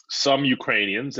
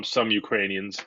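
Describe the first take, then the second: First: Some said a bit higher with a rising tune; stress on some. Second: Some pressed firmly at normal pitch; stress on some. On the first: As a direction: lean on the word some. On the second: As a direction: hit the word some squarely. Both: Shown as a demonstration. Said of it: "I emphasize the word some".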